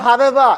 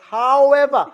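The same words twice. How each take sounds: First: It starts with a lip-on-teeth v sound. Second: It starts with a rounded-lips w sound. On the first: The speaker calls it wrong. "It's not however" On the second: The speaker calls it right. "It's however"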